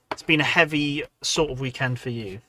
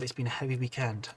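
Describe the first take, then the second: First: "heavy" punched louder than the rest; stress on HEAVY. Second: Said in the usual way. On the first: Real, not acted. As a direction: lean on the word "heavy". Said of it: "emphasis on the heavy".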